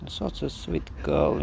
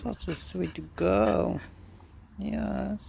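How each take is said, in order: First: Deep, fond croon; low cooing praise. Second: High cooing praise. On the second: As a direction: coo it up high to the dog. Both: Real, not acted.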